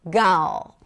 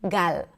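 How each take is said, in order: First: The final L is dark, with the tongue back raised. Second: The final L is clear, lighter and shorter. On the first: "The L in American English is a dark L" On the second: "in Hebrew... a very simple, clear L"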